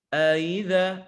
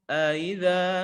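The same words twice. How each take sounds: The two takes are said the same way.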